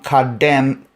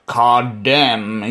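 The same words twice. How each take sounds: First: Said in the usual way. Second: "Kadem" said slowly and carefully as KAH-dem, dropping the Geordie accent; careful non-Geordie pronunciation. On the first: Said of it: "Not with a Geordie accent anyway". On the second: Shown as a demonstration. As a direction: sound out "Kadem" the proper way, not Geordie. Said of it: "I'm gonna have to talk like this".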